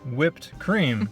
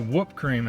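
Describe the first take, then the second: First: The first word sounds like 'whipped'. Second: The first word sounds like 'whoop'. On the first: "that's how I say whipped cream" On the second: "I say whoop cream"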